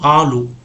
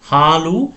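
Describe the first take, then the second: First: The word begins directly with a vowel. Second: The word begins with an h sound. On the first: The speaker calls it wrong. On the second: The speaker calls it right.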